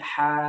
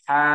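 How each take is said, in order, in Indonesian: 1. Suku katanya dilepaskan dengan udara yang mengalir. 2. Suku katanya ditekan dan ditahan dengan kuat. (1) "dilepaskan, jangan ditahan" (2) "jangan jangan seperti itu"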